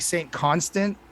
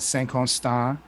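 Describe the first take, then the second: First: The name is pronounced the English way. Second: The name is pronounced the French way.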